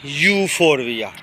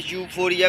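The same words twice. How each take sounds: First: ਯੂਫੋਰਬੀਆ said slowly, keeping the ਬੀ before the final ਆ; ਯੂਫੋਰਬੀਆ in full, slow and deliberate; careful full name. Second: ਯੂਫੋਰੀਆ said short, with no b sound; ਯੂਫੋਰੀਆ as the quicker everyday short form; shortcut name. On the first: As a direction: draw out every syllable of ਯੂਫੋਰਬੀਆ, teaching the name. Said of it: "ਯੂਫੋਰਬੀਆ ਕਹਿੰਦੇ ਆ". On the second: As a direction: drop the ਬ and run straight to ਰੀਆ in ਯੂਫੋਰੀਆ. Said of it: "ਕੁਛ ਲੋਕ shortcut". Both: Shown as a demonstration.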